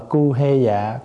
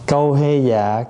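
First: The first syllable has the plain vowel 'u', cu. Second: The first syllable has the vowel 'âu', câu. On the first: The text is read as written, which may evoke an unseemly word. The speaker calls it wrong. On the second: The syllable is altered to avoid an unseemly word. The speaker calls it right.

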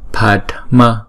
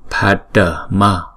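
First: The word is said in two syllables. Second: The word is said in three syllables. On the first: The speaker calls it right. "Padma ha" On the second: The speaker calls it wrong. "Nếu mà chúng ta đọc thành ba âm như là Padma là không đúng"

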